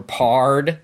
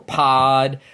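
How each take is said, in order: First: The word is said with an 'ard' sound. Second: The word is said with a plain 'od' vowel.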